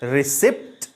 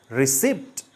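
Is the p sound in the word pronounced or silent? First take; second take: pronounced; pronounced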